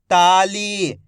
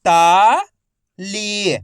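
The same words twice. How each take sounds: First: Said in the usual way. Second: ताली stretched slowly, each syllable held long; slow drawn-out reading. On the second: Shown as a demonstration. Teacher showing students how to read ताली, slow and drawn out. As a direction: draw out ताली slowly so children can follow each sound. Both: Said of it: "मेरे तरीके पे गौर करना है".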